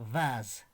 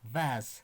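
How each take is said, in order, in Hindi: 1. यह शब्द z ध्वनि से खत्म होता है। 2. यह शब्द z ध्वनि से खत्म होता है।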